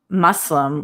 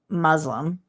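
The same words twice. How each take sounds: First: The s is a soft, unvoiced s. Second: The s is voiced like a z. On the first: The speaker calls it right. "like pussy, soft S" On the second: The speaker calls it wrong.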